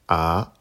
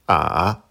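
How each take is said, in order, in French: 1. La hauteur monte du milieu vers le haut. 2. La hauteur descend bas, puis remonte. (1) "Deuxième ton" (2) "Troisième ton"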